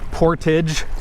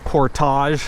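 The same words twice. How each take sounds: First: It is pronounced the English way. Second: It is pronounced the French way.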